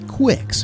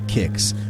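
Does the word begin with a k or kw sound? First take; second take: kw; k. First: The word begins with a kw sound. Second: The word begins with a plain k sound. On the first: The speaker calls it wrong. "you would think Quicks, but no" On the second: The speaker calls it right. "Pronounce it kicks"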